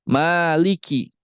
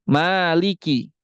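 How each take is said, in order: The two takes are said the same way.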